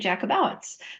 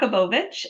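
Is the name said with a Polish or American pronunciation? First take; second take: American; Polish. First: The name is said with American pronunciation. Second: The name is said with Polish pronunciation.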